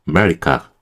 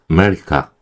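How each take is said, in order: Both takes have the same delivery.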